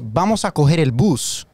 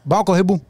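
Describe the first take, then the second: First: It is said in a standard Spanish accent. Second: It is said in a coastal Monteria accent.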